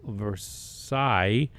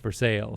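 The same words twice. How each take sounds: First: It is said like the French palace name. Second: It is said in the local Kentucky way. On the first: An outsider would say it this way. "There's a place in uh, Kentucky called Versailles" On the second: This is how the locals say it. "but it's pronounced Versailles"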